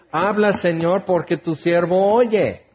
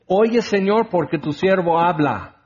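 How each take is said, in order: First: "Habla, Señor" asked plainly, then settling down on "oye"; humble prayer. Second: Reversed prayer. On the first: Preacher showing the right prayer to the congregation, humble. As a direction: offer your ear, humbly. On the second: Preacher mocking a proud prayer to the congregation, bossy. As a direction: demand God's ear, lightly mocking. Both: Shown as a demonstration. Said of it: "Es al revés".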